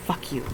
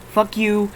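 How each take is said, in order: First: Muttered under breath. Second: Louder curse at screen. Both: Real, not acted.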